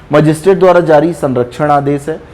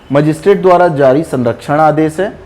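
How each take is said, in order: Both takes have the same delivery.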